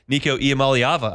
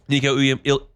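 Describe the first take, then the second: First: The surname is said in full, every syllable. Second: The surname comes out garbled and cut short. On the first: The speaker calls it right. "I can nail" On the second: The speaker calls it wrong. "No, I didn't do it. That's so disappointing"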